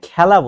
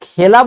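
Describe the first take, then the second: First: The first vowel sounds like 'a' in cat. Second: The first vowel sounds like 'e' in bet. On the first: This is how people actually say it. The speaker calls it right. "বাস্তবে কিন্তু আমরা উচ্চারণ করি খ্যা" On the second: This is how the word is written. The speaker calls it wrong. "খেলা আমরা বলি sorry লিখি"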